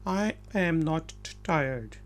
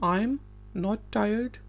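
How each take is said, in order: First: 'I am' is said as two full words. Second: 'I am' is contracted into one syllable.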